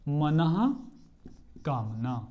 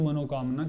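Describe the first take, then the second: First: The middle has a breathy 'h', manah kamna. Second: The middle has an 'o' vowel, manokamna. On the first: The speaker calls it right. "क्या बोलना चाहिए हमें" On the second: The speaker calls it wrong. "अगर आप मनोकामना बोलेंगे तो आपकी मनोकामना कभी पूर्ण नहीं होगी"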